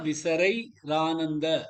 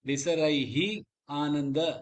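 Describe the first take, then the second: First: An 'r' sound links into the next word. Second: The first word ends in 'hi', kept apart. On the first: "சொன்னா இன்னொரு அழகு கூடுறது" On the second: "அப்படின்னு சொல்லலாம்"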